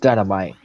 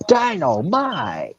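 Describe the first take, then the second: First: The word is said in a plain voice. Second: The word is said in an exaggerated character voice.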